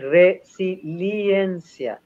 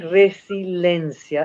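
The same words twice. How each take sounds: First: The word is said as 'resiliencia', with both i sounds. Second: The word is said as 'resilencia', without the extra i. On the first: The speaker calls it right. "es resiliencia" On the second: The speaker calls it wrong. "no es resiliencia"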